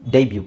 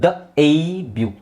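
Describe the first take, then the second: First: ಡೆಬ್ಯೂ in one go, "DAY-byu"; joined-up word. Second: ಡ ಎ ಬ್ಯೂ slowly in parts, "d-ayyy-byu"; drawn-out first syllable. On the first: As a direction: say ಡೆಬ್ಯೂ whole with "day" first. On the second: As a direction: stretch the "ay" long in ಡ ಎ ಬ್ಯೂ. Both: Shown as a demonstration. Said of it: "ನೀವು ಡೇ ಅಂತ ಎಳಿಬೇಕು".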